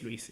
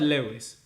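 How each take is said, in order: First: The name is said the owner's way. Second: The name is said the British way. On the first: This is how the name's owner says it. The speaker calls it right. "But my name is Luis" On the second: This is how the commenter says the name. The speaker calls it wrong. "you pronounce that Lewis, which is kind of Luis in, in, in Britain"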